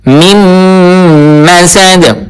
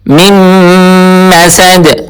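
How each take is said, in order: No difference in how they are said.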